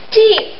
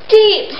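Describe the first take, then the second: No difference in how they are said.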